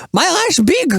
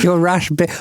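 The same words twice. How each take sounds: First: Put-on high Dutch-accented echo; mock Dutch accent; Dutch accent imitation. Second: Said in the usual way. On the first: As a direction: copy the Dutchman's voice. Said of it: "You sound Louis van Gaal".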